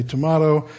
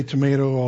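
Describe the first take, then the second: First: Tomato with an "ah" in the middle; broad-A tomato. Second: Tomato with a long "may" in the middle; American tomato. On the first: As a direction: say tomato as "to-MAH-to". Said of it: "I'll say tomato". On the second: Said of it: "you say tomato". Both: Shown as a demonstration.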